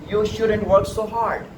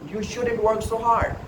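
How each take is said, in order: The two takes are said the same way.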